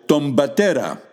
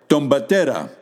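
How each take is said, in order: Both takes have the same delivery.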